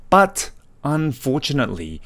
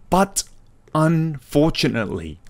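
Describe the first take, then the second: No difference in how they are said.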